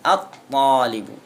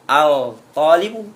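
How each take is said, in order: First: The l sound merges into a doubled t. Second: The l sound is pronounced before the t. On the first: The speaker calls it right. "Ini at-talibu" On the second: The speaker calls it wrong. "Tidak boleh dibaca al-talibu"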